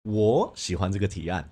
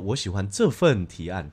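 First: The stress is on 我. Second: The stress is on 这份.

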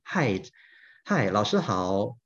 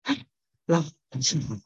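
First: The voice sounds clear and normal. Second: The voice sounds hoarse and breathy.

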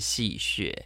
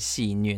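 First: The second syllable is pronounced like 'xue'. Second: The second syllable is pronounced like 'nüe'. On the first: "你一直讲的戏谑戏谑" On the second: "我们台湾念戏虐"

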